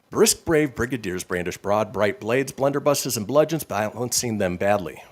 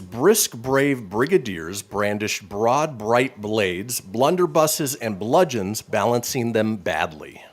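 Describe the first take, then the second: First: It is said fast. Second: It is said at a normal pace.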